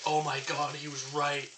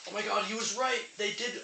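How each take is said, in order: First: Said in the usual way. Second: Sudden high surprised exclamation. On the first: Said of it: "I was like". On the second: Real, not acted. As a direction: gasp it out, caught off guard. Real realization about the straw.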